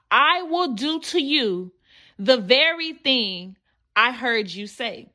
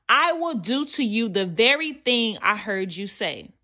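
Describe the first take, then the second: First: "I will do to you" slowed, pause, then "the very thing I heard you say" with weight on "very"; slow emphatic repeat. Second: Said in the usual way. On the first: Shown as a demonstration. Preacher repeats the verse slowly so the congregation takes it in. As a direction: let each word land with a pause in the middle.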